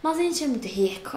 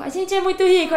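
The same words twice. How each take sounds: First: Said in the usual way. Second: Higher and louder, punching "rico"; emphatic repeat. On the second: Shown as a demonstration. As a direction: proudly stress "rico". (repetindo mais alto, com ênfase em "rico")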